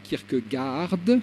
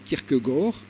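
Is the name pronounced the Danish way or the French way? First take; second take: French; Danish. First: The name is said with French-style pronunciation. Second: The name is said with Danish pronunciation. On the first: The speaker calls it wrong. "et non pas" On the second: The speaker calls it right.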